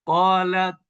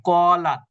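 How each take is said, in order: First: কলাত with a puff of air let out on the final t; কলাত ending in an audible breathy t; with hams. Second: কলাত with the final t held shut, no air let out; কলাত with a closed, airless t; without hams. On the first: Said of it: "এই যে বাতাস বের করলেন আপনি". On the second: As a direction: stop কলাত dead on the t, mouth closed. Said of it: "তাহলে এর উচ্চারণটা এভাবে হবে". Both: Shown as a demonstration.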